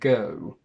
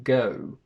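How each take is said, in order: First: The vowel ends with clearly rounded lips. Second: The same.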